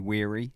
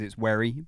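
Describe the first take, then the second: First: The surname is said in the common other pronunciation. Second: The surname is said in its owner's pronunciation. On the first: This is how others commonly say the name. The speaker calls it wrong. "but people say Weary" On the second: This is how the family says the name. The speaker calls it right. "people get my surname wrong quite a lot because it's Weary"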